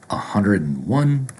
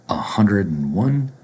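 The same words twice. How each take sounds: Both takes have the same delivery.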